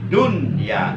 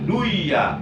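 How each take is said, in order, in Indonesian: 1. Bunyi n diucapkan dengan jelas. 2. Bunyi n menyatu dengan bunyi berikutnya. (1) "Nun matinya dibaca jelas berbunyi en" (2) "nggak boleh diidghamkan"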